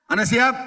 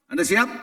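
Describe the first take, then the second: First: "Anda siap?" again, pushed with a rising "siap"; louder repeat. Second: Said in the usual way. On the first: Real, not acted. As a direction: raise the call to rouse them.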